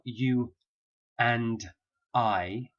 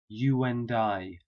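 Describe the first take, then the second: First: The words stay separate with no linking w sound. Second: A w sound links 'you' smoothly into 'and'. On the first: The speaker calls it wrong. "So it's not you and I" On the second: The speaker calls it right. "you get what we call an intrusive w sound"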